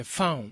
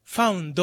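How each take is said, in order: First: Found cut to "faun"; dropped final consonant. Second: Found said as "fa-un-do"; katakana final vowel. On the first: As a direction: say "found" without the d. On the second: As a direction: add a full "do" to "found". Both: Shown as a demonstration. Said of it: "じゃなくて".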